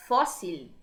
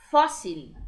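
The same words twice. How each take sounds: First: Said in the usual way. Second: Fóssil said loud and lower, FÓ stressed; teacher modelling pronunciation; model word. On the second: Shown as a demonstration. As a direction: drop low and punch FÓ in Fóssil. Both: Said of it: "uma palavra?".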